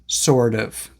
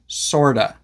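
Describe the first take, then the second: First: Both words are said fully and separately. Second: The two words blend into one reduced word. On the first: "the real words" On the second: "how we sometimes pronounce"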